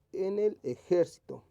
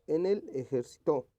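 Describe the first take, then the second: First: Ejército slow and raised, JÉR punched; ejército stressed on its second syllable. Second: Ejército misread as ejerciTÓ, stressed at the end; ejército said like the verb ejercitó; misplaced stress. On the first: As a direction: hit e-JÉR-cito in ejército, unhurried. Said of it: "que esté correctamente escrita". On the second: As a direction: move the stress in ejército to its last syllable. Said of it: "más o menos". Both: Shown as a demonstration.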